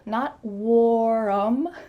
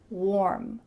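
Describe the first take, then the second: First: The word is stretched into two syllables. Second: The word is said as one syllable. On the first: The speaker calls it wrong. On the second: The speaker calls it right. "the word warm has just one syllable"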